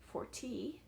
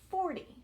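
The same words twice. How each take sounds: First: The stress is on the second syllable. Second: The stress is on the first syllable. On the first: The speaker calls it wrong. "We don't say forty" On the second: The speaker calls it right. "we say forty. So the stress or the push in my voice is on that first syllable"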